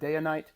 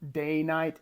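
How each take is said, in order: First: It is said with an extra syllable after day. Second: It is said with two syllables, no extra sound. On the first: "extra inflection on that first I that I've heard" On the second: "I don't know if it's day night"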